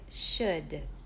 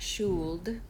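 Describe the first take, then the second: First: The vowel is a short, relaxed uh. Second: The vowel is a long, rounded ooh. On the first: The speaker calls it right. "uh, uh, took, foot, should" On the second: The speaker calls it wrong. "notice not should"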